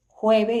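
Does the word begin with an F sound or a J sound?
J sound. The word begins with a J sound. "Es con J"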